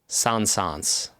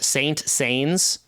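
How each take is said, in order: First: The name's ending does not rhyme with pains. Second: The name's ending rhymes with the word pains.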